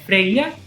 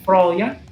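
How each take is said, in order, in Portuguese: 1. O nome é pronunciado do jeito do islandês moderno. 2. O nome é pronunciado do jeito do nórdico antigo. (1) "No islandês moderno é Freya" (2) "no nórdico antigo Froya"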